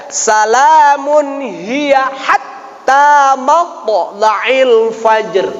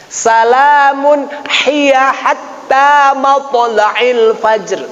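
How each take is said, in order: First: "hatta" from mid-throat, slow chant; correct recitation. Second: "hatta" read with a plain h, slow chant; wrong ha. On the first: Teacher models the right reading of Al-Qadr, slow chant. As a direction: recite carefully with a pressed ha. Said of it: "harus dibaca beda". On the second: Teacher imitates a common error in Al-Qadr, slow chant. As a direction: recite it with an ordinary ha. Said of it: "dibacanya ha biasa". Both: Shown as a demonstration.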